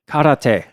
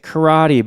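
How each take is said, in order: First: It is said with a Japanese pronunciation. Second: It is said with an American English pronunciation.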